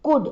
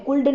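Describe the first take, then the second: First: "could" said as "kood", silent L; short "could", rhyming with "good"; correct pronunciation. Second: "could" with the L sounded; wrong pronunciation. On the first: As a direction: drop the L in "could". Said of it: "ઉચ્ચાર could થાય". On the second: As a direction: say "could" as "kuld", pronouncing the L. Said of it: "could નહીં બોલવાનું". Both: Shown as a demonstration.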